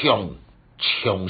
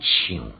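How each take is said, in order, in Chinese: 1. 这个字用文读音。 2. 这个字用白读音。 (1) "唱是读音" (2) "有音就爱讲唱"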